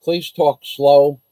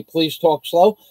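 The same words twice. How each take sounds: First: Slow, spelled-out please talk slow; drawn-out request to slow down. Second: Said in the usual way. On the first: Retold or imitated. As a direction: say it slowly as if to someone who can't follow.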